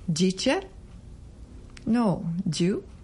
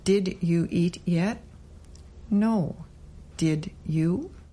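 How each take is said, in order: First: It is said fast with words run together. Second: It is said slowly with each word clear.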